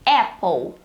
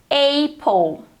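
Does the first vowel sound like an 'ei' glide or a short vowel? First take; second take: short vowel; ei glide. First: The first vowel is a plain short vowel. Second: The first vowel is an 'ei' glide. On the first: The speaker calls it right. "não tem som de ei. É apple" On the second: The speaker calls it wrong. "muitas pessoas pronunciam apple"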